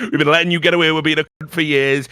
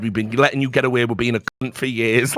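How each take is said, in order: First: A bit louder and fast, heated; imitating an angry scolding; mock telling-off. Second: Said in the usual way. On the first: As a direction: rattle it off like a furious boss. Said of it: "they're absolutely going off". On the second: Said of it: "They've told me".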